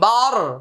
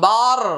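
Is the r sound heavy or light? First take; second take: light; heavy. First: The r is pronounced light and thin. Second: The r is pronounced heavy and full. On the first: The speaker calls it wrong. "আমরা বলি না বার" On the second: The speaker calls it right. "বার মোটা হবে"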